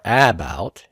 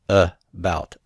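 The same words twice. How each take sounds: First: The first vowel is a full clear vowel. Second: The first vowel is a short reduced uh. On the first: The speaker calls it wrong. "It's not about or about" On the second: The speaker calls it right. "It's just about"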